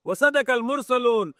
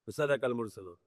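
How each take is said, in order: First: Recited verse. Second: Soft repeat. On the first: Quran verse recited, then repeated. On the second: Same verse repeated softly. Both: Acted.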